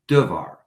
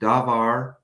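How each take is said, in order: First: The first vowel is a very short E. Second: The first vowel is a full A sound. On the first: The noun is in the construct form. "that first A um, becoming um, a very short E vowel" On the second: The noun stands on its own. "pronounced dabar with two A vowels"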